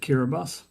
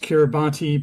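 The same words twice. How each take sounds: First: The name is pronounced the way locals say it. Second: The name is pronounced the way it is spelled. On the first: The speaker calls it right. "the locals pronounce it Kiribati" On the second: The speaker calls it wrong. "it looks like it should be pronounced Kiribati"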